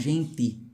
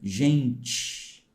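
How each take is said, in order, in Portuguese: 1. O t é falado como um t normal. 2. O t é falado com som de 'ch'. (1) "Aqui eles falam" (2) "O paulista tem um chiadinho"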